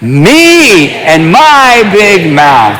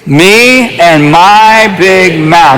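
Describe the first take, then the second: First: It is said with strong passion and energy. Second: It is said in a plain, calm way.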